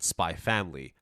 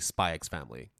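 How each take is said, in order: First: The X is silent between the words. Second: The X is spoken between the words. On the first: This is the official reading of the title. "officially, they're both Hunter Hunter and Spy Family" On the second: This is the speaker's personal habit. "I say Spy X Family"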